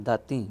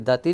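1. ਆਖਰੀ ਸਵਰ ਅਨੁਨਾਸਿਕ ਹੈ। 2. ਆਖਰੀ ਸਵਰ ਸਾਧਾਰਨ ਹੈ, ਅਨੁਨਾਸਿਕ ਨਹੀਂ। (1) "ਬਿੰਦੀ ਲਾ ਕੇ" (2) "ਇੱਥੇ ਦਾਤੀ ਨਹੀਂ ਕਹਿਣਾ"

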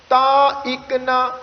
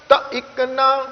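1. ਪਹਿਲੇ ਸ਼ਬਦ ਵਿੱਚ ਲੰਮੀ ਮਾਤਰਾ ਹੈ। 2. ਪਹਿਲੇ ਸ਼ਬਦ ਵਿੱਚ ਛੋਟੀ ਮਾਤਰਾ ਹੈ। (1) "ਕਈ ਵਾਰ ਆਪਾਂ ਉਚਾਰਨ ਉਹਦਾ ਕਰਦੇ ਹਾਂ ਜੀ ਬਹੁਤੀ ਦਫਾ ... ਤਾਂ ਨਹੀਂ ਪੜ੍ਹਨਾ" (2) "ਬਸ ਇਕੱਲਾ ਇੱਕੋ ਹੀ ਅੱਖਰ ਉਚਾਰਨ ਹੋਵੇ ਜੀ"

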